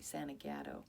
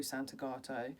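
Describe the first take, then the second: First: The name is said in an American accent. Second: The name is said in an English accent. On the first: The speaker calls it right. "They're like, Santagato. I can't really do an American accent" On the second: The speaker calls it wrong. "It doesn't sound as cool when you're English and you say his last name"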